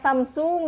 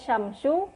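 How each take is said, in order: First: The word begins with a plain s sound. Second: The word begins with a sh sound. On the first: The speaker calls it wrong. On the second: The speaker calls it right.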